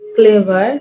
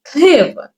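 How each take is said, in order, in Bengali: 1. দুটো সিলেবলেই সমান জোর দেওয়া হয়। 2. প্রথম সিলেবলটি একটু লম্বা করে এবং জোর দিয়ে বলা হয়। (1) "এভাবে বলবো না" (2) "প্রথম সিলেবলটাকে একটু লং করে বলবো"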